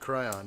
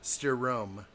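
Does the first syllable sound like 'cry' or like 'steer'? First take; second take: cry; steer. First: The first syllable sounds like 'cry'. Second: The first syllable sounds like 'steer'. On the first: The speaker calls it wrong. "I've been calling it the Cryon" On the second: The speaker calls it right. "You would say it's pronounced Chiron or Steerone"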